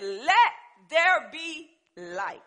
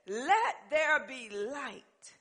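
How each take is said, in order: First: Very slow, loud divine command; thundering voice of God. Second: Very slow, solemn divine command; slow voice of God. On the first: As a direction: boom it out as God. God speaks, retold louder. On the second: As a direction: speak as God creating light. God speaks in Genesis. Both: Acted.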